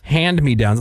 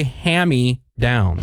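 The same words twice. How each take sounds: First: Said in the usual way. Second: HAND-ME-DOWNS said "hammy downs", nd dropped; mispronunciation. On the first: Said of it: "A lot of people say". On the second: Shown as a demonstration. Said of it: "A lot of people say hand-me-downs".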